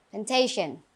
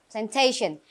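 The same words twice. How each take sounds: First: Plantation with the TA syllable stressed, plan-TA-tion; stress on second syllable. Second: Said in the usual way. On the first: Shown as a demonstration. Teacher reminds class where stress falls, TA in Plantation stressed. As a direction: lean on TA in Plantation. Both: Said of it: "the stress is on the second syllable".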